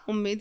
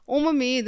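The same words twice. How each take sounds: First: Said in the usual way. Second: "उम्मीद" broken as um-ameed; split double M. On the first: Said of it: "उम्मीद सही होता है". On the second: Shown as a demonstration. Teacher rejects a misspelling, "उम्मीद" with split M. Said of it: "उम्मीद नहीं होता".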